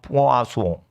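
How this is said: It is said with a French pronunciation. The word means fish. "프랑스 발음은 포아소"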